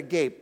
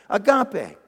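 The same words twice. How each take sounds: First: It is said like the English word agape. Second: It is said as the Greek word agape. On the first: The speaker calls it wrong. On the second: The speaker calls it right.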